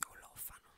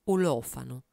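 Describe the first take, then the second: First: The word Olofano breathed out in a whisper. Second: Said in the usual way. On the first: Shown as a demonstration. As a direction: repeat Olofano as a soft whisper.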